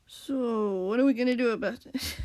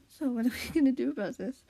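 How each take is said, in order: First: Wrong character voice. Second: Squishy. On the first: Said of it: "Wrong voice". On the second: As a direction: ask it evenly, without drawing out "so". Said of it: "Squishy asked". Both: Acted.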